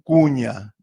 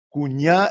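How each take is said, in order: First: The stress is on the first syllable. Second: The stress is on the last syllable. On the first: This is the Chiriguano Guaraní pronunciation. "tienden a volver llanas" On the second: This is the usual Guaraní pronunciation. "se acentúan en la última sílaba"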